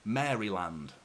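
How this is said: Each syllable is pronounced clearly, English style. This is how it is said in England. "in England that would be pronounced Maryland"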